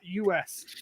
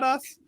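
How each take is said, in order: First: It is spelled out as two letters. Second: It is said as one word, "us". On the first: The speaker calls it wrong. "or high tech pod dot U S" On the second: The speaker calls it right. "high tech pod dot us"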